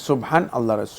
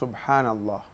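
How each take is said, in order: First: The two words are said separately, with a break. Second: The two words are joined into one unbroken word. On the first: The speaker calls it wrong. "না সুবহান আল্লাহ" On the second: The speaker calls it right. "আল্লাহ শব্দটা পরিপূর্ণ একসাথে আসতে হবে"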